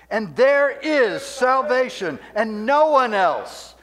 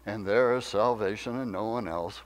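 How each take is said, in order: First: It is read strongly and forcefully. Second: It is read weakly and casually. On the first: The words carry power that changes people. The speaker calls it right. "we read this with strength" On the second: The words are treated as a dull formality. The speaker calls it wrong. "It's not to be this"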